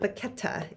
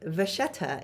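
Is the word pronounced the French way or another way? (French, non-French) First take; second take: non-French; French. First: It is pronounced in a non-French way. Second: It is pronounced in the French way. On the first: The speaker calls it wrong. "It is not Vachetta. Those are other pronunciations in like German and English" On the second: The speaker calls it right. "Vachetta is how you say it in French"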